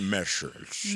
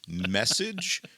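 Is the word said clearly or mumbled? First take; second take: mumbled; clearly. First: The word is mumbled sleepily with little mouth opening. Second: The word is said clearly and fully enunciated. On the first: The speaker calls it wrong. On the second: The speaker calls it right.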